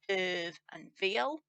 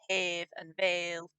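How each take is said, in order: First: The two words have different, non-rhyming vowels. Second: The two words share a rhyming vowel. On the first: This is the speaker's own natural pronunciation. "I would naturally pronounce this hiv and veal, which definitely don't rhyme" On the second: This is how some dialects say it. "In some dialects you get"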